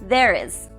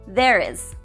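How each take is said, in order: The two takes are said the same way.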